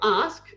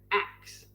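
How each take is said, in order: First: The word ends with the sounds s then k. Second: The word ends with the sounds k then s. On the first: The speaker calls it right. "they don't say ask like A S K, like how it's spelt" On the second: The speaker calls it wrong. "They say ax"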